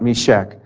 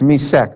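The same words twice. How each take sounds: First: The middle sound is an 'sh'. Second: The middle sound is a plain 's'. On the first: The place many believe to be Moscow. The speaker calls it wrong. "not Meshech" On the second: The place named in this psalm. The speaker calls it right. "this is Meshech without the H"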